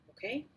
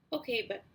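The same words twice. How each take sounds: First: Said in the usual way. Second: Okay choked off in the throat; voice catching. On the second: A narrator's reading. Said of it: "my voice caught in my throat".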